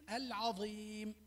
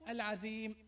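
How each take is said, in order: First: The z sound is heavy and emphatic. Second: The z sound is plain, like dhal. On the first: The speaker calls it right. "قل العظيم" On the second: The speaker calls it wrong. "لا تقل العظيم"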